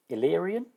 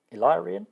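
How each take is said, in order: First: "Illyrian" as il-LEER-ee-an; short-i pronunciation. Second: "Illyrian" as il-LIE-ree-an, questioning rise; long-i alternative. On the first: Player trying out an alien race's name, "Illyrian" said il-LEER-ee-an. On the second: Player doubting the race's name, "Illyrian" said il-LIE-ree-an as a question. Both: Shown as a demonstration. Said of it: "I'm gonna say Illyrian".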